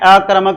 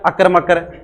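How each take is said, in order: First: The word is said as 'akarmak'. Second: The word is broken into 'akar makar'. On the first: The speaker calls it right. "देख लो नाम किस प्रकार से पढ़ना है" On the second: The speaker calls it wrong. "ऐसे अकर मकर कर देते ना... तो ये ऐसे सही नहीं है"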